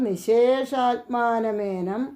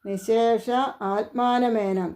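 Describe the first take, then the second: First: The two words merge into one word. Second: The two words are said separately.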